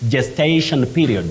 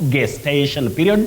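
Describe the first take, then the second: First: The word begins with a soft J sound. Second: The word begins with a hard G sound. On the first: The speaker calls it right. "the G takes sound J, the voiced sound J" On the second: The speaker calls it wrong. "not gestation period that we commonly hear around us"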